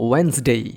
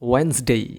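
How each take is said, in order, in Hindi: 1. d ध्वनि मौन रहती है। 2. d ध्वनि मौन रहती है।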